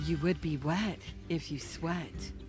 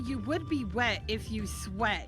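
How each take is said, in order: First: It is said in an exaggerated put-on voice. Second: It is said in an ordinary speaking voice.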